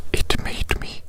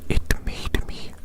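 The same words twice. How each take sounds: The two takes are said the same way.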